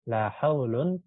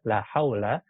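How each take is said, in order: First: The second word ends in -un with nunation. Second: The second word ends in a short -a. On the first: The la works like laisa or has no effect. "dibaca haulun dengan tanwin" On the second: The la negates the whole category, like inna. "kalau dia kita baca fathah, mabni dengan tanda fathah"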